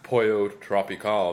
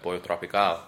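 First: It is said with an English accent. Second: It is said with a Spanish accent. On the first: The speaker calls it wrong. "Not Pollo Tropical" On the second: The speaker calls it right.

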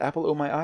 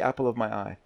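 First: The middle word is a full 'oh' vowel. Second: The middle word is reduced to a schwa. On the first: The speaker calls it wrong. "you don't say apple o my eye" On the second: The speaker calls it right. "It's like a schwa"

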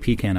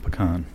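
First: It is said the New Jersey way. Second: It is said the Southern way. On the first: The speaker calls it right. "We say pecan up here" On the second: The speaker calls it wrong. "not pecan. ... Everyone down there in South says pecan"

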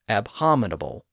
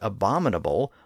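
First: An H sound is heard after the first syllable. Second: No H sound is heard after the first syllable. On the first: "his supposedly correct version of the word includes an H in the middle" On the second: "he pronounces the word abominable like that, like we do today"

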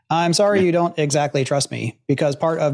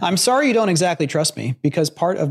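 First: It is read in a put-on robot voice. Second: It is read in a natural human voice.

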